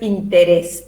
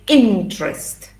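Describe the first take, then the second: First: The word is said with three syllables. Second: The word is said with two syllables. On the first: The speaker calls it wrong. "no es interest" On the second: The speaker calls it right. "Two syllables"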